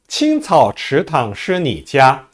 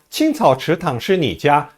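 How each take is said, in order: First: The line is read at a normal pace. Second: The line is read at a fast pace.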